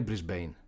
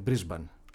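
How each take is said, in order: First: The last syllable has an 'ay' vowel. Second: The last syllable has an 'ah' vowel. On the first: This is the Americanised form. The speaker calls it wrong. "Δεν είναι Μπρισμπέιν" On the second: This is the Australian form. The speaker calls it right. "Είναι Μπρισμπάν"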